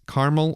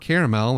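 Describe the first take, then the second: First: It uses the everyday, casual pronunciation. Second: It uses the fancier, more refined pronunciation.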